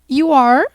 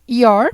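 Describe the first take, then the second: First: It is said as two separate full words. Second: It is said as one short contracted word. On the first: "a forma normal" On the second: "podemos falar assim também"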